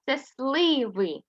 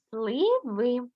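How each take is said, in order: First: Сливи drawn out slowly; teacher naming the picture slowly; slow modelling. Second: Said in the usual way. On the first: Shown as a demonstration. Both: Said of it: "Є у нас такий малюночок".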